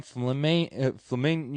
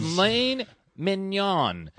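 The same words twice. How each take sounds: First: Southern drawl mangling "flamin-", left unfinished; tongue-tied Texan. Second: "Filet mignon" said slowly, syllable by syllable; careful pronunciation. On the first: Real, not acted. Friend failing to order filet mignon, tongue-tied on "flamin-". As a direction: stumble on "flamin-" and break off. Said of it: "my Texas accent is, is killing me". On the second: Shown as a demonstration. Friend proving he can say it, "Filet mignon" slow and careful. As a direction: focus hard and pronounce "Filet mignon" cleanly, drawn out. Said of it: "See, I could say it".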